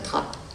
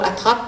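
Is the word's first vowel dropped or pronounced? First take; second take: dropped; pronounced. First: The first vowel of the word is dropped. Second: The first vowel of the word is pronounced.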